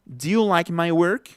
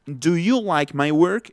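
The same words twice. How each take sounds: First: "do you like my work" opening as "d'you", slowly; fuse do and you into one syllable, rising question; contracted form. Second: "do you like my work" with do and you both full; uncontracted form. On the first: Teacher showing the correct contraction, reduced-form demo. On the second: Teacher showing the wrong way, full-form demo. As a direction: pronounce DO and YOU as two separate words. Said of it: "No es do you like my work". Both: Shown as a demonstration.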